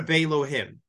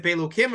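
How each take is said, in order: First: Belohim with an h sound before the final -im. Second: Belokim with a k sound before the final -im. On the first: Teacher offering the other reading of the verse, Belohim with an h. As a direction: say Belohim with h in place of k. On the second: Teacher asking which reading of the verse, Belokim with a k. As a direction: say Belokim with a hard k. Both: Shown as a demonstration. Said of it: "is it Belokim or Belohim".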